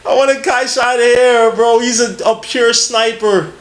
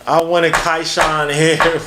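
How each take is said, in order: First: Excited. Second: Said in the usual way. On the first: Real, not acted. Excited draft-night outburst.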